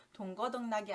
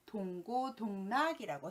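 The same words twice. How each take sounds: First: 동거동락이 with 거 as the second syllable; wrong form. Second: 동고동락이라고 with a clear 고 as the second syllable; correct form. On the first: Teacher showing learners the wrong idiom, mispronounced 거. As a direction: say the mistaken 거 in 동거동락이. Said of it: "아니라 동고동락이라고 써야 맞는". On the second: Teacher correcting a common idiom slip, careful 고. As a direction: say 고, not 거, in 동고동락이라고. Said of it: "써야 맞는". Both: Shown as a demonstration.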